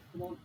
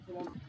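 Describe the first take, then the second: No difference in how they are said.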